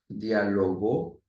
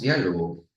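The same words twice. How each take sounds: First: The stress is on the last syllable. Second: The stress is on the first syllable. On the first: Someone had a conversation in the past. "Cuando usted tenga la mayor fuerza de voz en la última sílaba" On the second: A conversation. "La esdrújula tiene su mayor fuerza de voz en la antepenúltima sílaba"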